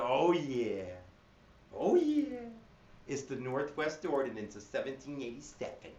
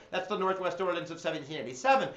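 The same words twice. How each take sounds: First: Goofy sing-song "oh yeah", then "seventeen eighty-seven" dropped softer; silly mnemonic delivery; cray-cray voice. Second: Said in the usual way. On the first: Shown as a demonstration. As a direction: ham it up so kids remember. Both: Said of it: "I'm saying it like a cray-cray person".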